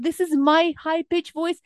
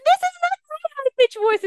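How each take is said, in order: First: Higher voice, still natural; natural high pitch. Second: Very high, loud, quick squeak; unnatural high pitch. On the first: Coach demonstrating her own high range, naturally high. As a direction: lift into your upper natural range. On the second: Coach showing a high pitch that is not hers, unnaturally high. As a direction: shoot up into a fake squeal. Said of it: "It's very unnatural". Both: Shown as a demonstration.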